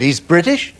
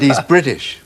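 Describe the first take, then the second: First: Rising tune on British, as a question; teasing Marty with a rising question. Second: Falling tune on British, said as a plain fact; insisting to Marty he's British; flat statement. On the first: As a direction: ask it, lifting British up at the end. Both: Retold or imitated. Arguing over singer's nationality.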